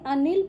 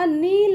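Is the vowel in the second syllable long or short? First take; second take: short; long. First: The second syllable has a short i vowel. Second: The second syllable has a long ee vowel. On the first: The speaker calls it right. "अनिल पढ़ते हैं ना, तो यहाँ पे छोटी ई का ही उच्चार होगा" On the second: The speaker calls it wrong. "यदि बच्चों नी बड़ी का उच्चार करेंगे तो नील हो जाएगा, अनील नहीं पढ़ेंगे"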